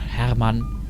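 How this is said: The name is said with a German pronunciation.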